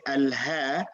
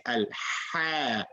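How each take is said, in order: First: Al-Ha with a plain h from the throat bottom; mistaken ha. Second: Al-Ha with a tight, strong h from mid-throat; drawn-out pharyngeal h in Al-Ha. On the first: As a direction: show the wrong Al-Ha, h as in English. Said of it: "They should not say Al-Ha". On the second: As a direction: model Al-Ha slowly, constricting the middle of the throat. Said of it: "just from the middle of the throat". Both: Shown as a demonstration.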